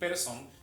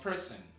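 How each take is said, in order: First: The last syllable has a full O vowel. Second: The last syllable has a weak, reduced vowel. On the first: The speaker calls it wrong. "Usted nunca va a escuchar a un nativo en inglés decir person" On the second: The speaker calls it right. "se debe pronunciar como E"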